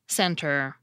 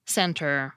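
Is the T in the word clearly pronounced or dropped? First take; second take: clear; clear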